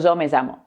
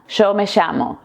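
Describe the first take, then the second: First: The ll and y do not sound like sh. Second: The ll and y sound like English sh. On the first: "yo soy de Córdoba, yo tengo otro acento" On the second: "En Buenos Aires la doble L y la Y se pronuncian como una sh en inglés"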